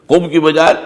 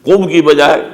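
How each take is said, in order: The two takes are said the same way.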